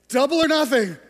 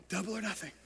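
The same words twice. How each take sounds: First: Louder, higher gambler's plea; desperate gambler. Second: Quiet refrain. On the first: Retold or imitated. Gambler pleading to the dealer, louder and higher. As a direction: throw it out like a last desperate bet. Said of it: "And he goes". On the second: Acted.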